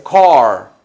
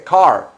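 First: Car slow and loud, full English r; right car. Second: Car said the wrong, Spanish way; car with a flat Spanish a. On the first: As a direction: stretch out car with a clear English r. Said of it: "se dice car". (car bien pronunciado, lento y fuerte) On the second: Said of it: "pero no se dice car". (car mal pronunciado, a la española) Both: Shown as a demonstration.

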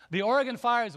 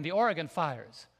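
First: Oregon repeated higher and louder; stress on Oregon. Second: Said in the usual way. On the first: Shown as a demonstration. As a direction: hit The Oregon fires harder the second time. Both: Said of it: "repeats the phrase for emphasis".

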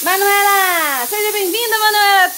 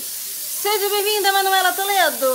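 First: High, loud, voice breaking with feeling; emotional high welcome. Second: Slow high welcome. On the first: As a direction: cry out the welcome, nearly sobbing. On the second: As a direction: draw out the welcome sweetly. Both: Shown as a demonstration. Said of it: "deixa eu falar de novo".

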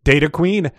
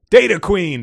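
First: Mild, restrained gush. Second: Higher-pitched, fuller gush. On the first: Huge man answering Midge's call, mildly gushing. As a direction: greet her with a touch of delight. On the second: Huge man delighted by Midge's call, gushing. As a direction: burst out with delighted greeting. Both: A narrator's reading. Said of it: "the huge man gushed".

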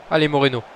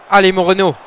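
First: Said in the usual way. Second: Higher and louder, pushing him on; louder urging. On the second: Real, not acted. Gamer urging his winger as the chance builds, rising shout. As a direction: raise the voice to drive him forward. Urging the same player twice.

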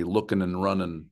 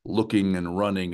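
First: "looking and running" with final G's dropped, ending in plain n. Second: Said in the usual way. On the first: Shown as a demonstration. Writing teacher showing dialect spelling, "looking and running" with G's dropped. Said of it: "you're dropping the G's at the end". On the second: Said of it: "dropping the G's at the end".

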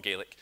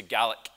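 First: "Gaelic" with a long ay, like GAY-lik; non-Scots pronunciation. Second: "Gaelic" with a short a, like GAL-ik; Scots pronunciation. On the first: Showing listeners what to avoid, "Gaelic" said as GAY-lik. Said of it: "It's not Gaelic". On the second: Teaching listeners the Scots word, "Gaelic" said as GAL-ik. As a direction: say "Gaelic" to rhyme with italic. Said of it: "say Gaelic". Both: Shown as a demonstration.

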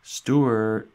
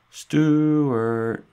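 First: Loud high call across the house. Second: A much higher, louder full shout; louder calling out. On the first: Family calling for tiny Stuart through the house, loud call. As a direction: shout his name to find him. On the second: Family calling again for the hidden Stuart, even louder shout. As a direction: yell the name once more, stronger. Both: A narrator's reading. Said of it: "the house often echoed with cries of".

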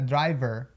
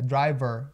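First: "driver" with an E in the last syllable; pronúncia errada. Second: "driver" ending in a curled UR; som de UR. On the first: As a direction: mispronounce "driver" as dri-vehr. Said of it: "não é driver". ("driver" com E no final) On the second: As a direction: finish "driver" on UR, a little exaggerated. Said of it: "com esse som de U R no final". ("driver" com UR no final) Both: Shown as a demonstration.

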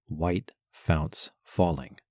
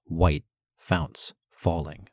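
First: "white founts falling" slow, every syllable hit equally hard; three even beats. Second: "White founts falling" slow, three equal strong beats; three even beats. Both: Shown as a demonstration. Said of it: "three regular beats of a bass drum".

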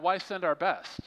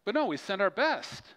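First: Higher-pitched sarcastic question. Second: Higher-pitched, emphatic and earnest; sincere. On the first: Acted. Preacher mocking reluctance to send missionaries, sarcastic. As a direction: ask it as mock objection. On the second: Real, not acted. Preacher urging church to send its best, sincere. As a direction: drop the sarcasm and insist. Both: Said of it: "That was sarcasm".

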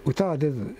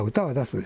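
First: 出ず misread with a voiced final zu; misread word. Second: 出す corrected to an unvoiced final su; corrected reading. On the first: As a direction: read 出ず ending in zu instead of su. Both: Real, not acted. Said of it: "あ、歌は出す".

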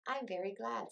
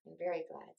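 First: Higher, gladly voiced Pooh; happy. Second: Understated happy Piglet; a touch of gladness, near the narrator's own pitch. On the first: Pooh to Eeyore about his useful present, happy. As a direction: say it with mild, pleased happiness. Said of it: "said Pooh happily". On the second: Piglet echoing Pooh about the gift, mildly happy. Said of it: "said Piglet happily". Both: A narrator's reading.

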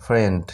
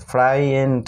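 First: ফ্রেন্ড as one short syllable, frend; correct pronunciation. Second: ফ্রাইয়েন্ড with a spoken i, fry-end; deliberately wrong ফ্রাইয়েন্ড; wrong pronunciation. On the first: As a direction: model the right ফ্রেন্ড. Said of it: "উচ্চারণটা কিন্তু হয় ফ্রেন্ড". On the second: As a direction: sound the silent i in ফ্রাইয়েন্ড. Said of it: "কিন্তু না উচ্চারণ". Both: Shown as a demonstration.

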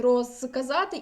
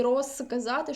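First: РОЗКАЗАТИ with a clearly voiced з before к. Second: РОЗКАЗАТИ with з softened toward a voiceless с; devoiced z as s. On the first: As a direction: keep the з buzzing in розказати. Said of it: "можемо написати в фонетичній транскрипції". (розказати з дзвінким з) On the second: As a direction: say розказати as if spelled росказати. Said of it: "що так, що так буде правильно". (розказати з оглушеним з, як с) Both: Shown as a demonstration.

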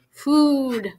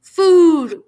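First: Drawn-out, higher-pitched groan. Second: Loud, high, drawn-out moan; louder moan. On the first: Hurt friend coming round in the back seat, groaning. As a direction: groan the word as if half-conscious. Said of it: "Then he groaned". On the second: Half-conscious friend moaning again in the car, louder. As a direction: moan the word out loudly. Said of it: "Grover moaned a little louder". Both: A narrator's reading.

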